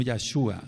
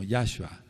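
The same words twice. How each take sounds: First: Yahshua as yah-SHU-a, stressed on SHU; the mistaken yah-SHU-a accent; wrong stress. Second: Yahshua as YAH-shua, stressed on YAH; the correct YAH-shua accent. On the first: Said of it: "no Yahshua". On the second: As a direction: hit the first syllable of Yahshua, then fall: YAH-shua. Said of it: "sino Yahshua". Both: Shown as a demonstration.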